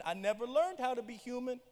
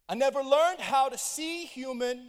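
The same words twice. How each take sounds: First: Said in the usual way. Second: Louder, slow emphatic repeat; preacher stressing see over be. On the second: Real, not acted. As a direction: drive the changed word home slowly.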